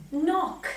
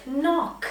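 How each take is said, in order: Both takes have the same delivery.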